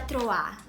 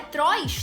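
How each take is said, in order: First: The word ends in a vowel with an r-like sound. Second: The word is read as spelled, ending with s. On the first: The speaker calls it right. "não tava escrito Troar, tava escrito Trois" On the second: The speaker calls it wrong. "eu não sabia como pronunciava"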